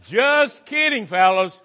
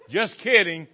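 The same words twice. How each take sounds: First: High, slow, playful just kidding; a teasing high-pitched take. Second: Said in the usual way. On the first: Shown as a demonstration. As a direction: sing it up high like a tease. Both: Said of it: "I say that just teasing".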